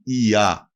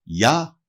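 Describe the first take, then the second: First: «ι-α» as two separate vowels, i then a; separated vowels. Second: «Για» as one syllable, ya; soft i. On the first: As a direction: keep the i apart from the a in «ι-α». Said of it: "δεν θα γράφονται με". («ι-α» με χωριστό ι και α) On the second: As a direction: glide the soft i straight into a in «Για». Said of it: "την μαλακή μορφή του". («Για» μονοσύλλαβα, με μαλακό ι) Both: Shown as a demonstration.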